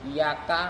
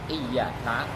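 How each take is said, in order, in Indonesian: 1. Bunyi y-nya tunggal dan dibaca pendek. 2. Bunyi y-nya dobel dan dibaca lebih panjang. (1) "membaca ringan dengan tanpa tasydid" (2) "dalam lafaz iyyaka itu ada tasydidnya"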